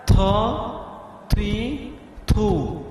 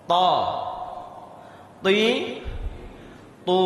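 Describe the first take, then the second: First: "ta, ti, tu" pushed out with a puff of air; breathy wrong ta. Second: "Ta, ti, tu" clipped with no puff of air; crisp unaspirated ta. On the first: Teacher mimicking the wrong airy ta for students. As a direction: let air rush out on each "ta". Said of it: "Jangan dibaca seperti ini". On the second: Teacher showing the right way to say ta, crisp. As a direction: say "ta" clean, tongue on the gum ridge. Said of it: "seperti itu bacanya". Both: Shown as a demonstration.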